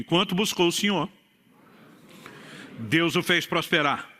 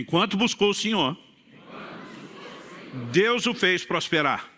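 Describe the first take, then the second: First: It is said in a plain, calm voice. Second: It is said louder and with more energy.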